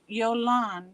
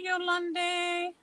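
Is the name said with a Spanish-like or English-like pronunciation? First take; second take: English-like; Spanish-like. First: The name has an English-like pronunciation. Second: The name has a Spanish-like pronunciation. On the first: The speaker calls it right. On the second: The speaker calls it wrong.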